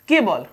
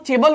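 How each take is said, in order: First: The word begins with a k sound. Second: The word begins with a ch sound. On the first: The speaker calls it right. "हमने इसको केवल ही पढ़ा है" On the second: The speaker calls it wrong. "हमने इसको चेबल नहीं पढ़ा"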